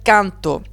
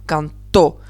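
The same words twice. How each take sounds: First: The stress is on the first syllable. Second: The stress is on the last syllable. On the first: It is the present tense. The speaker calls it wrong. "Je ne peux pas dire canto. Canto, ça serait du présent indicatif" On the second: It is the simple past tense. The speaker calls it right. "Donc je dirais bien canto. Pour vraiment accentuer, cette dernière syllabe"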